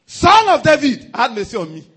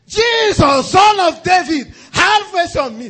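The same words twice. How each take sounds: First: Retold cry for mercy. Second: Much higher, very loud, slow cry; desperate shout. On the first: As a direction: cry out to be heard over the noise. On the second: Retold or imitated. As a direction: shout over the crowd, pleading. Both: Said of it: "He shouted".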